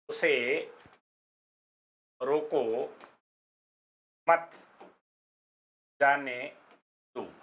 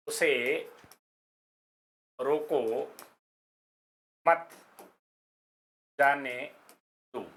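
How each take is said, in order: First: The pause comes right after 'रोको'. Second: The same.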